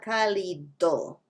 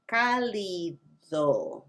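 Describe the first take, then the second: First: "cálido" with a hard English d; "cálido" mein sakht angrezi d. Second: "cálido" with a soft th-like d; slow "cálido" with the d almost a soft th. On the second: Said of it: "not cálido". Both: Shown as a demonstration.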